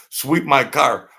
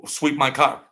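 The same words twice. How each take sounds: First: "Sweep my car" slower and louder, weight on "my"; slow, louder insistence on "Sweep my car"; emphatic repeat. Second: Said in the usual way. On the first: Retold or imitated. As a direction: punch "my" in "Sweep my car" as a firm order. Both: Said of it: "I says".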